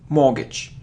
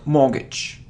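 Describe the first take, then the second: Both takes have the same delivery.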